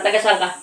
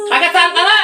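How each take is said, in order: First: Said in the usual way. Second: High, raised-voice repeated question; insistent demand. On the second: Real, not acted. Healer presses patient on where they are from, high and insistent. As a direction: demand the answer, pitching it sharply up.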